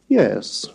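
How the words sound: The pitch falls on the word. "falling yes"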